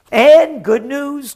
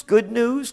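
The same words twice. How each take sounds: First: Drawn-out, loud, higher sarcastic "And good news"; mock good news. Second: Said in the usual way. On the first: Real, not acted. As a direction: announce "And good news" like a fake herald, slow and loud. Mock cheer introducing bad news.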